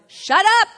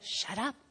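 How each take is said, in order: First: The words are said noticeably louder. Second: The words are said at a quieter, normal volume. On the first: "And then it gets a little bit louder" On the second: "that inner voice, and it's not a scripture, will say"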